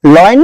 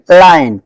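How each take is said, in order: First: लॉयन said with an "o" like "loy-un"; लॉयन as the wrong "oy" vowel; wrong pronunciation. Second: लायन said as "lie-un", long "ai" sound; लायन with an open "aa-ee" glide, falling; correct pronunciation. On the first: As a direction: show the mistake: लॉयन rounded like "loyal". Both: Shown as a demonstration. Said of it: "लॉयन नहीं".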